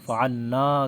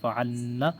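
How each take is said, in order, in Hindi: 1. नून के बाद आख़िरी स्वर लंबा है। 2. नून के बाद आख़िरी स्वर छोटा है। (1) "फ़अलना का मतलब है हम सब ने किया" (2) "इसमें आखिर में अलिफ नहीं है, नून को नहीं खींचेंगे"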